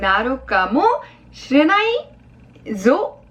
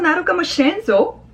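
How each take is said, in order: First: The ending is said in full as shirenai zo. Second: The ending is shortened to shiren zo. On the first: "뭐 사소아레 나쿠 나루까모 시레나이조 라는 겁니다" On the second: "좀 약간 축약이 되면서 시레나이가 시렌조 응으로 바뀌었어요"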